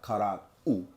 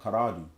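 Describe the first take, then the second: First: The word is said slowly with the ending apart. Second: The word is said quickly as one smooth unit. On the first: The speaker calls it wrong. "we don't kind of make it like like Karad-u" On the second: The speaker calls it right. "we say it quickly, so it sounds like Karadu"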